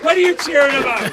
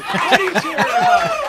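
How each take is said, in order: First: Louder and higher, a playful shout; host yelling at the cheering bar crowd in mock outrage; mock indignant shout. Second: Much higher, laughing through the words; host repeating the question while laughing; laughing squeal. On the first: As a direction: call out the cheering crowd in jest. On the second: Pretend. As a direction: crack up while shouting it again.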